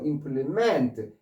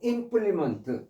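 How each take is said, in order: First: The stress is on the last syllable. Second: The stress is on the first syllable. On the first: It is a verb meaning to complete or carry out. "이제는 뒤에 강세 있는 거예요. 동사로 implement" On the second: It is a noun meaning a tool or instrument. "앞에 강세에 있어서 implement"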